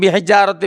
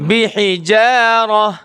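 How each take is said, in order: First: The word ends in a t sound, linked onward. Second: The word ends in an h sound, then stops. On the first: The reading continues without stopping. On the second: The reading stops on this word.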